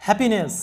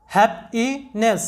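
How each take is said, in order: First: Said in the usual way. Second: happiness drawn out very slowly, each syllable clear; teacher slowly models happiness; slow demo pronunciation. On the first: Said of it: "আমাদের সাউন্ডটা হবে". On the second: Shown as a demonstration. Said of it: "happiness, এরকম হবে".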